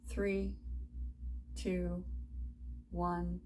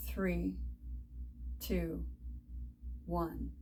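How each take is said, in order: Both takes have the same delivery.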